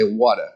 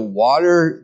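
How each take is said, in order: First: "water" in an Eastern accent, lower, ending softened. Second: Said in the usual way. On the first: Shown as a demonstration. Showing how some Michigan people say water, Eastern accent. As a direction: say "water" like an Easterner, dropping the final r. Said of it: "they have kind of an Eastern". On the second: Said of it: "instead of water".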